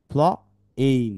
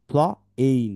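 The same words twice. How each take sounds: The two takes are said the same way.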